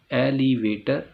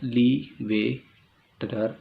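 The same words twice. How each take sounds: First: Said in the usual way. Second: एलिवेटर very slow, ए, लि, वे, टर with gaps; four-part split. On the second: Shown as a demonstration. Teacher dividing एलिवेटर into four parts, slow syllable breaks. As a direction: pause after each syllable of एलिवेटर. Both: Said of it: "एक word को चार हिस्सों में divide करते हैं".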